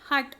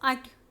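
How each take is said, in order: First: The word begins with an h sound. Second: The word begins without an h sound. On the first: The speaker calls it right. "when you are saying hut" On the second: The speaker calls it wrong. "you're not saying at"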